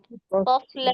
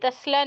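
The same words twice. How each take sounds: First: The s is not a light, thin s sound. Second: The s is a light, thin s sound. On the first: The speaker calls it right. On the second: The speaker calls it wrong.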